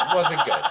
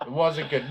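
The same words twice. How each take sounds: First: Laughing through the words; chuckling while saying it. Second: Said in the usual way. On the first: Real, not acted. Laughing at partner's weak acting.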